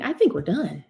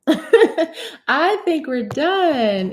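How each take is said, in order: First: Said in the usual way. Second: Slow, drawn out through a laugh. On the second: Real, not acted. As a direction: giggle through "I think we're done" as you stretch it out. Repeats it laughing.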